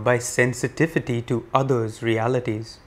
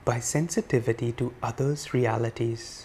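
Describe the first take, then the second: First: The words are spoken at normal volume. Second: The words are spoken softly. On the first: "In a regular voice now" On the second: "Softer still"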